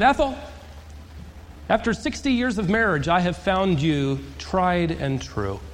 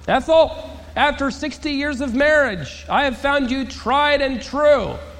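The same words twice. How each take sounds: First: It is said at normal volume. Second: It is said a little louder.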